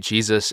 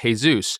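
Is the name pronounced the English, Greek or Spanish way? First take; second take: English; Spanish. First: The name has an English pronunciation. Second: The name has a Spanish pronunciation. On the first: "we say Jesus in English. That's the common pronunciation" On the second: "In Spanish, it's pronounced differently. They pronounce it Jesus"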